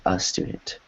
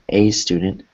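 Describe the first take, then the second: First: The word 'a' has a weak 'uh' vowel. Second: The word 'a' has a full 'ay' vowel. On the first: The speaker calls it right. "it becomes a schwa when you're reading, speaking" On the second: The speaker calls it wrong. "instead of saying a student"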